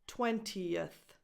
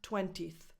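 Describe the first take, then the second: First: A short schwa vowel comes before the 'th'. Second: No extra vowel comes before the 'th'. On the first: The speaker calls it right. "add a little extra schwa before the th" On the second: The speaker calls it wrong. "not twentieth"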